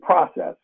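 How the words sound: It is said with the host country's pronunciation. "which we use here in this country"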